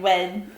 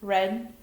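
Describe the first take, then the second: First: The R sounds like a W. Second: The R is said as a clear R.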